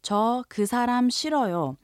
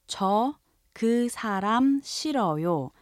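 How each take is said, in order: First: 저 그 사람 싫어요 said fast, run together; 자연스러운 속도로; natural speed. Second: 저 그 사람 싫어요 said slowly, word by word; 천천히 또박또박; slow model. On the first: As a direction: say 저 그 사람 싫어요 as a native would. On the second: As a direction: spell out 저 그 사람 싫어요 for learners. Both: Shown as a demonstration. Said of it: "So if you say".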